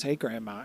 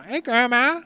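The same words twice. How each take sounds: First: Said in the usual way. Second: Put-on high, loud little girl voice; child voice. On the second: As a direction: squeak it like a cheeky kid. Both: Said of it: "She says".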